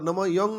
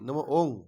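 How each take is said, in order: First: The second word starts with a 'y' sound. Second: The second word starts with a plain vowel. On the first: The speaker calls it wrong. "नमो योंग नहीं" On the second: The speaker calls it right.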